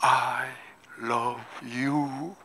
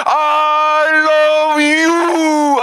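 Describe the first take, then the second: First: Much softer, lower, tender; God answering his son softly; tender whisper-soft answer. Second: Much higher, louder, very slow; God shouting his love back; drawn-out shouted love. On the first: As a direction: say it gently as a loving father. God's quiet answer. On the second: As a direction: cry it out with all your heart. God's answer shouted. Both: Acted.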